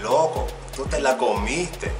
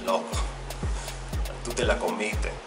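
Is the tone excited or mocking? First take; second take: excited; mocking. First: The voice sounds excited and impressed. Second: The voice sounds teasing and mocking. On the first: You did something great. "you were excited for me. Then you could be like" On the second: You really messed up. "you got an F and I got an A. Then I might be like"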